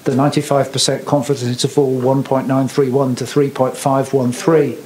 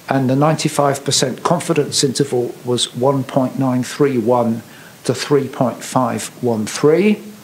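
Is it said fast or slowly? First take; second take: fast; slowly. First: It is said at a quicker pace. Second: It is said at a slower pace.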